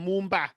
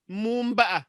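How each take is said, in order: First: It is said quickly, without the final vowel. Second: It is said carefully, with the final vowel.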